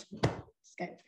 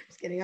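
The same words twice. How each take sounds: First: Breathy whispered just kidding; whispered joke. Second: Said in the usual way. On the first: Real, not acted. To her viewers, taking it back in a whisper. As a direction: drop to a playful whisper on the take-back. Teasing after admitting she cried.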